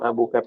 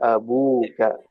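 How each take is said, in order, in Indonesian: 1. Vokal sebelum ka itu pendek. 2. Vokal sebelum ka itu panjang. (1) "bukan abu kak pendek" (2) "tapi abu kak. Pakai pakai waw"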